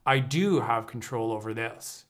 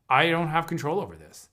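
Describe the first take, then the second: First: I do have, with weight on do; stress on do. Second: Said in the usual way. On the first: Shown as a demonstration. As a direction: do leaned on firmly.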